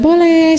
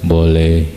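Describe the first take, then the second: First: It is said in a higher, lighter voice. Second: It is said in a deep, big voice. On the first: A woman is answering, which does not calm. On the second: A man is answering, which feels calming.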